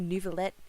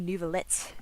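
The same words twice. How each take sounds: First: The T is softened to sound like a D. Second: The T is crisply and fully articulated. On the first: This is the speaker's own casual way of talking. "how I say Nouvelette" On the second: This imitates a refined, proper way of talking. "he'd say Nouvelette"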